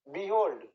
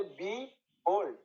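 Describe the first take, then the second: First: Said in the usual way. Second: "behold" slowly split, বি, then hold; second-syllable stress. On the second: Shown as a demonstration. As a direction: break "behold" in two, landing on hold. ("Behold" ভেঙে ধীরে, "হোল্ড"-এ জোর) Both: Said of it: "এটা second সিলেবেলে stress হবে".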